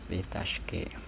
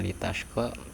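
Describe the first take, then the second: First: The final vowel is shifted toward an 'e' sound. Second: The final vowel is an open 'a' sound. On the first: "diimalahkan menjadi litashke" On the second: "yang mulanya litashko"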